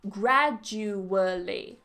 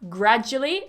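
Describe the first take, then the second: First: The word is said with four syllables. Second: The word is said with three syllables. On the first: "it has four syllables" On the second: "three syllables"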